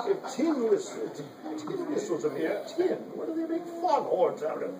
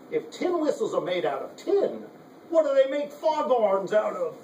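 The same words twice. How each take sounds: First: Put-on Cockney accent. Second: Put-on light Cockney accent, higher; a hint of a Cockney comic line. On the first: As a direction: retell the joke in a hint of Cockney. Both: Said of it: "like in a Cockney accent".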